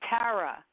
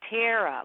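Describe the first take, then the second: First: The first syllable does not sound like 'tear'. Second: The first syllable sounds like 'tear' (rip). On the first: This is how the name's owner says it. The speaker calls it right. "actually pronounced Tara" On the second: This is how other people usually say it. The speaker calls it wrong. "like tear a piece of paper in half"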